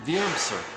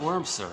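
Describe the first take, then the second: First: The name begins with a V sound. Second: The name begins with a W sound. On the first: The speaker calls it right. "it's a V, right? ... that sounds right" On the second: The speaker calls it wrong. "It's not Wormser, right? It's not W"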